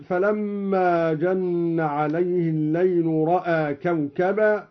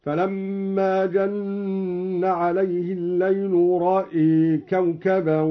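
First: Said in the usual way. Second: رأى as "ra'ee", plain ra, hamza tilted to e; slow chant with رأى ending in a long e; imala of hamza. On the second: Shown as a demonstration. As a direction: tilt only the second syllable of رأى towards e. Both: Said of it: "أمال الدوري الهمزة فقط".

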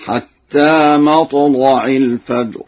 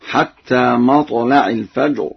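First: Heavy, dark l in مطلع; slow recitation with emphatic, full-mouthed l in مطلع; thickened lam. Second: Said in the usual way. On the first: Shown as a demonstration. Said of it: "بتغليظ اللام هكذا". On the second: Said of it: "قرأ ورش بتغليظ اللام".

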